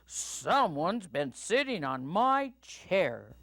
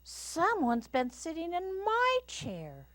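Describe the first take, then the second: First: It is said in a booming Papa Bear voice. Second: It is said in a quiet Mama Bear voice.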